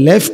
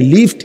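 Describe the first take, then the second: First: The vowel sounds like the one in 'left'. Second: The vowel sounds like the one in 'lift'. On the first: The word means left, the direction. The speaker calls it wrong. "ইয়ে লেফট नहीं है" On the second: The word means an elevator. The speaker calls it right. "লিফট है"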